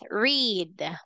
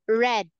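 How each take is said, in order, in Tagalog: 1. Mahaba ang patinig, parang 'reed'. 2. Maikli ang patinig, parang 'red'. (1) "this is the present tense" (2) "when we say past tense, we have read"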